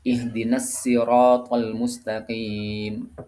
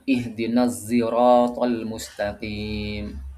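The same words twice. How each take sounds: First: Sirat begins with a light, plain s sound. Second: Sirat begins with an emphatic sound blended toward z. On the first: This is one narrator's accepted reading. "pakai sin" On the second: This is another accepted reading by two reciters. "Huruf shadnya itu dicampur dengan huruf zain"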